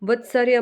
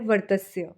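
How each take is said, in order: First: The middle sounds are said as 'vatsarya'. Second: The middle sounds are said as 'vartasya'. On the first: The speaker calls it wrong. "इसका उच्चारण वत्सर्य मत कीजिएगा" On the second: The speaker calls it right. "इसका सही उच्चारण है वर्तस्य"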